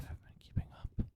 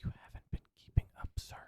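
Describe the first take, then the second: First: Hushed teasing whisper; mock whisper. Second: Quick hushed teasing whisper; faster mock whisper. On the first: Teasing the cohost in a hushed whisper. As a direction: breathe it out as a sly dig. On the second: Needling the cohost again in a quick whisper. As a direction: whisper it fast, needling him.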